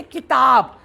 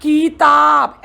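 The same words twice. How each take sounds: First: किताब with a short, quick 'ki'; correct short vowel. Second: किताब with 'ki' stretched into a long 'kee'; wrong long vowel. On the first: Teacher gives the right way, किताब with short 'ki'. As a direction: keep the first vowel of किताब brief. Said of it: "हम बोलते किताब". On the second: Teacher shows how not to say it, किताब as 'keetaab'. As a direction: drag the first syllable of किताब. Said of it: "हम ये नहीं बोलते". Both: Shown as a demonstration.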